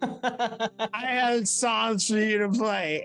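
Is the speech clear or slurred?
slurred. The words are spoken slurred, drunk-sounding.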